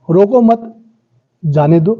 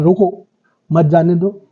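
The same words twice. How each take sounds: First: रोको मत run together, a break, then जाने दो; pause after मत. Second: रोको, then a clear break, then मत जाने दो together; pause after रोको. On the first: Teacher shows students the opposite meaning by speech, pause after मत. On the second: Teacher shows students how a spoken pause changes meaning, pause after रोको. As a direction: set रोको apart before मत जाने दो. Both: Shown as a demonstration. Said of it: "बोलने में आपने कहाँ पॉज लिया".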